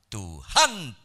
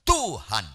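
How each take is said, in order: First: The stress is on the second syllable. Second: The stress is on the first syllable. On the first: The speaker calls it wrong. "Kalau di han lebih keras itu bisa salah" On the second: The speaker calls it right. "kata Tuhan harus kata tu, itu notasi penekanan lebih keras"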